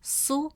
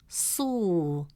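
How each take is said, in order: First: The vowel is short. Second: The vowel is long. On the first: "gives it a short u sound, pronounced as su" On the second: "it stretches the short u sound into a long oo sound"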